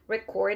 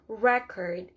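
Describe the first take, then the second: First: The word is said faster. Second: The word is said slower. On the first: It is the verb. "record is a verb, that's why you're saying it faster" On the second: It is the noun. "Record is a noun, so you have to say it slower"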